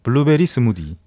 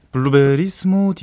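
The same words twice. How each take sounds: First: 블루베리 스무디 with a strong fall after a punched 블루베리; 블루베리 punched, Busan melody; Busan-accented version. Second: 블루베리 스무디 slow and flat, stress on 스무디; 블루베리 스무디 with even Seoul melody; Seoul-style phrase. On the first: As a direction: hit 블루베리 hard Busan-style. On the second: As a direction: ease off and say 블루베리 스무디 evenly, slowly. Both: Shown as a demonstration. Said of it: "아, 그렇게 해야 돼".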